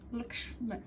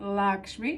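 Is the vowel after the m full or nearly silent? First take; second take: nearly silent; full. First: The vowel after the m is barely heard. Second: The vowel after the m is full. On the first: The speaker calls it right. "the sound after is, is barely any vowel at all" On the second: The speaker calls it wrong. "It's not"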